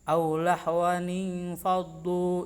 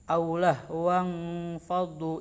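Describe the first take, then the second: First: An inserted 'ni' sound links the words. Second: The words join with no inserted 'ni' sound. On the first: The speaker calls it right. "harus ada nun wiqayah" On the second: The speaker calls it wrong. "itu tidak dibaca begitu"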